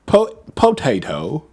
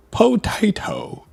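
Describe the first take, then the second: First: Slow "po-, potato", second syllable as "tay"; British accent practice. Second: High, drawn-out British "potato" as poh-TIE-toh; exaggerated British accent. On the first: Streamer practising British accent, "potato" slowly as poh-tay-toh. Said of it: "Let's Learn a British Accent". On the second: Streamer practising for chat, hammed-up British accent. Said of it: "Like that?". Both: Shown as a demonstration.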